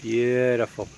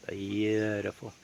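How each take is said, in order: First: Said in the usual way. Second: Beautiful said softer and slow, almost to himself; slow quiet murmur of awe; soft slow repeat. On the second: Real, not acted. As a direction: savour the word quietly. Admiring the view twice.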